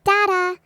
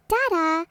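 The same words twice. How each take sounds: First: Put-on louder insistent baby babble; louder baby call. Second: Put-on light babbling baby word; baby babble. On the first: Baby calling after the stranger again, louder babble. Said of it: "she again said". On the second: Baby babbling at the man walking away, lightly voiced. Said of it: "she babbles". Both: A narrator's reading.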